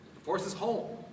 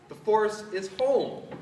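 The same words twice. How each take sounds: First: It is said in a plain, calm way. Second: It is said with more force and emphasis.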